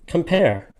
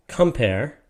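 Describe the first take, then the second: First: "Compare" with the stress on PARE, raised high and falling; stress on second syllable. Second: "Compare" wrongly stressed on COM; stress on first syllable. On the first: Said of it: "whoever said it said". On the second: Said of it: "That person did not say". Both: Shown as a demonstration.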